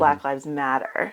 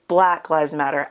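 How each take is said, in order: First: Black Lives Matter with the weight landing on "Matter"; stress on Matter. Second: "Black" hit as if bold and underlined; stress on Black. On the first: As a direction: lean on the last word, "Matter". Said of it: "they place the emphasis on the word matter". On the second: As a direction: put the weight on "Black", not "Matter". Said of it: "bold, underlined, italicized". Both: Shown as a demonstration.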